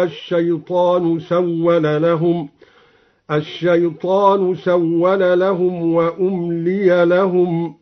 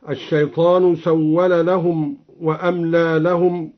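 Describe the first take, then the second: First: وأملي said as umliya with u and i; passive umliya. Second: Said in the usual way. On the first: Shown as a demonstration. Teacher demonstrates the passive reading for students, slow. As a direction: recite وأملي as umliya, hamza with damma, lam with kasra, slow. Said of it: "هكذا". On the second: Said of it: "قرأ بضم الهمزة وكسر اللام".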